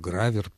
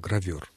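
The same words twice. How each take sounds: First: The stress is on the first syllable. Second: The stress is on the second syllable. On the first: This is how professionals in the trade say it. "Вот это именно профессиональный акцентный вариант" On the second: This is the standard literary form. "правильное — гравер"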